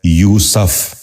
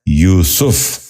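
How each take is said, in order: First: یوسف said as "yoo-saf", short a after s; mispronounced. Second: یوسف said as "yoo-suf", short u after s; correct pronunciation. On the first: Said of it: "یہ غلط تلفظ ہے". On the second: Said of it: "درست تلفظ ہے". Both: Shown as a demonstration.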